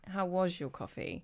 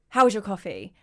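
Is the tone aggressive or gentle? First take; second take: gentle; aggressive. First: The question sounds soft and friendly. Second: The question sounds harsh and aggressive. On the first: The listener responds more openly. The speaker calls it right. "If you say it in a different way" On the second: The listener feels attacked. The speaker calls it wrong. "you're really aggressive"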